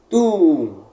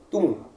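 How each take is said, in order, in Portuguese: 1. A vogal u é falada duas vezes. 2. A vogal u é falada só uma vez. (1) "Ambos devem ser pronunciados" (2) "Não é tum"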